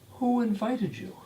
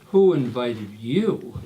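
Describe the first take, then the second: First: It is asked in a friendly, curious tone. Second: It is asked in a hostile, indignant tone. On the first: The asker simply wants to know who arranged the visit. "pretty much first question that everyone asks" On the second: The asker resents the visitor being there. "at least it's not who invited you. A slight difference. It's all in the tone"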